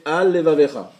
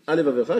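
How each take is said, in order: First: "Al Levavecha" loud, the L said twice; both lameds distinct. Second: "Al Levavecha" quickly as one word, one L dropped; read fast, slurred. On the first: Teacher reading the next example correctly, both lameds distinct. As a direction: separate "Al" firmly from "Levavecha", sounding both lameds. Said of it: "la phrase après". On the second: Teacher showing a lamed lost in fast reading, slurred together. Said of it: "Si je lis vite". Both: Shown as a demonstration.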